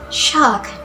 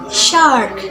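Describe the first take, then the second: First: It is said in a British accent. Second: It is said in an American accent. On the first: "In British accents" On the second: "In American accents"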